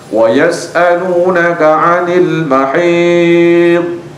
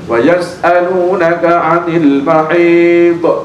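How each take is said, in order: First: The final consonant ends without an echoing bounce. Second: The final consonant ends with an echoing bounce. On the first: The speaker calls it right. "Bacanya seperti tadi" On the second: The speaker calls it wrong. "Ini yang salah, contoh yang salah"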